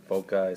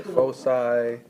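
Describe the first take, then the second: First: Foci said FOH-kai, with a K sound; hard c in foci, rhyming the end with sky; hard-c pronunciation. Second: Foci said FOH-sigh, with an S sound; soft c in foci, ending like sigh; soft-c pronunciation. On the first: Teacher showing how some people say it, hard-c pronunciation. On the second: Teacher showing how other people say it, soft-c pronunciation. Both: Shown as a demonstration. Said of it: "some people say foci".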